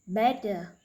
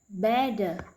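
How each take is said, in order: No difference in how they are said.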